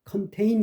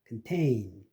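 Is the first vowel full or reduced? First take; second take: full; reduced. First: The first vowel is a full O sound. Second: The first vowel is reduced to a schwa. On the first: The speaker calls it wrong. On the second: The speaker calls it right.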